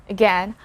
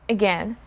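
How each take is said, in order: The two takes are said the same way.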